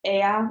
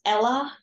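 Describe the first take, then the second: First: Ella said with a y sound, like "EH-ya"; Spanish pronunciation of ella. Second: Ella said with an l sound, like "ELL-uh"; Ella as the English name. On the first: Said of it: "rather than pronouncing ella, which equals". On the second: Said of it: "as the name". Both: Shown as a demonstration.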